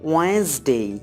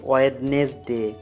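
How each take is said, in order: First: It has two syllables with no first d. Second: It has three syllables with a clear d. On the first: The speaker calls it right. "সঠিকভাবে জানার জন্য আমি প্রথমে বলছি" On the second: The speaker calls it wrong. "এভাবে আমরা উচ্চারণ করি। কিন্তু আমাদের উচ্চারণে ম্যাক্সিমামই দেখা যাচ্ছে যে ভুল।"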